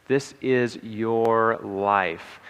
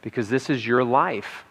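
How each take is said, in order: First: "This is your life." slowly, with "This" stressed hard. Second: Said in the usual way. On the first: Shown as a demonstration. Speaker drives the point home to audience, stressing "This" slowly. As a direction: lean hard on "This", then draw the rest out.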